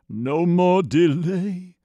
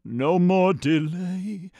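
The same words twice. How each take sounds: The two takes are said the same way.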